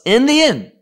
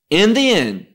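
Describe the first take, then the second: First: In the end lifted high and louder, stress on end; emphatic in the end. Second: Said in the usual way. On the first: Shown as a demonstration. Preacher to congregation on the end times, emphatic high stress. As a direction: ring out in the end like a prophecy. Preacher repeats key phrase, prophetic climax.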